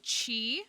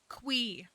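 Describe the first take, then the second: First: The name begins with a ch sound. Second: The name begins with a kw sound. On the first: "A lot of people say Chi, which also does make sense" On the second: "Concerned Ape said Quee. And that's just wrong"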